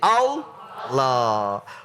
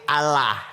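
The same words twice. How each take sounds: First: The L sound is heavy and thick. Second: The L sound is light and thin. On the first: The speaker calls it right. "Di sini dibaca tafhim" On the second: The speaker calls it wrong. "Kalau dibaca tarkik Allah"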